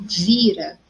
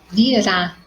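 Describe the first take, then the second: First: The stress is on the first syllable. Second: The stress is on the last syllable. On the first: Someone turns something over. "a sílaba mais forte é ouvir" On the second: It is the future tense of the verb to come. "a sílaba mais forte, rá"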